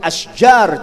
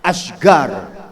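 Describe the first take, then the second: First: The middle consonant is a j sound. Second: The middle consonant is a hard g sound. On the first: This is the standard Arabic form. "jamaknya asjar" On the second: This is how people from Oman say it. "jadinya asgar"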